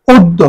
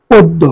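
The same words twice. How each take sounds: First: অদ্য said "od-do", অ sounding like ও; pronunciation demo. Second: অদ্য with a falling close, "od-do", অ like ও; correct pronunciation. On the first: Teacher showing the correct sound of অদ্য. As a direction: model অদ্য with an o-sound and a doubled d. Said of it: "অকে ও এর মতন উচ্চারণ". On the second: Teacher confirming the right answer, falling tune. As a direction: settle on অদ্য as "oddo". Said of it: "অদ্য শব্দ সঠিক উচ্চারণ হবে". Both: Shown as a demonstration.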